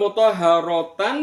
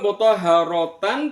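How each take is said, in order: First: The word is said in full with a t sound. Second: The same.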